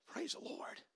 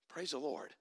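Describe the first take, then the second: First: Breathy unvoiced whisper of praise. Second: Much softer, low murmured praise; hushed praise. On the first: Preacher alone with his awe, whispered praise. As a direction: barely breathe the words in awe. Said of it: "whispered praise after the climax". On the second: Preacher to congregation after the climax, hushed praise. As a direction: let it drop to a reverent hush. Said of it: "hushed praise after the climax". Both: Real, not acted.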